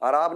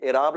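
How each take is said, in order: First: The word begins with a long 'aa' vowel. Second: The word begins with an 'e' vowel. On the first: The speaker calls it wrong. "आराब नहीं होता" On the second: The speaker calls it right. "एराब लफ्ज होता है ये"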